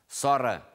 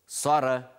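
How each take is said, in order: No difference in how they are said.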